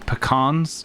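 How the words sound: The word is said the American way.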